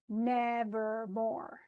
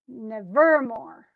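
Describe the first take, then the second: First: The first and third syllables are stressed. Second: The middle syllable is stressed. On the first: The speaker calls it right. "stressed, unstressed, stressed" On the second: The speaker calls it wrong. "You would never say nevermore. That doesn't make any sense"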